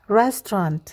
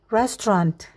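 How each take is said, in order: No difference in how they are said.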